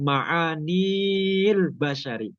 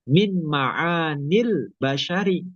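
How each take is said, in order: First: The vowel before the l is long. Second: The vowel before the l is short. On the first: The speaker calls it wrong. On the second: The speaker calls it right. "maka bacanya langsung tidak dipanjangkan"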